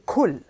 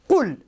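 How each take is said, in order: First: It begins with a plain k sound. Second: It begins with a deep sound from the throat. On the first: It means eat. The speaker calls it wrong. "With a ka, with a kaf" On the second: It means say. The speaker calls it right. "that letter that you start the first word with is qaf"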